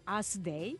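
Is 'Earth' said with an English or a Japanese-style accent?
Japanese. Earth is said like 'as', Japanese-style. "When Japanese try to pronounce the English word Earth for our planet Earth, we say as"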